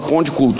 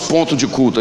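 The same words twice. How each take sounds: First: It has a Minas Gerais regional pronunciation. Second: It has a standard, non-regional Brazilian pronunciation. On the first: How people from Minas Gerais say it. "a gente fala ponto de culto" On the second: Not how people from Minas Gerais say it. "Nós mineiros não falamos ponto de culto"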